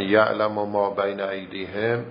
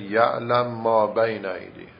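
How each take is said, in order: First: Said in the usual way. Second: «یعلم ما» with the first mim made silent and merged into the next mim; one long held mim in «یعلم ما»; merged mim recitation. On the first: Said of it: "مثلاً". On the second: Shown as a demonstration. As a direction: say «یعلم ما» as one doubled mim, no vowel between. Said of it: "میم اول رو ساکنش بکنه و بگه".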